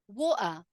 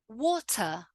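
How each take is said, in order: First: The T is cut off by a brief catch. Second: The T is clearly and fully pronounced. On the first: It sounds informal. "now let's look at the other way" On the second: It sounds very correct. "pronounce all of the words with a fully emphasized T"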